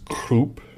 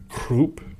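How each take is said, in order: Both takes have the same delivery.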